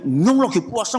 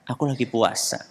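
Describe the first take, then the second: First: It is shouted loudly in an agitated tone. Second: It is said calmly in a flat, even tone. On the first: The speaker has been provoked into anger. The speaker calls it wrong. "Orang-orang menjerit" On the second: The speaker declines to be provoked. The speaker calls it right. "dengan nada yang datar"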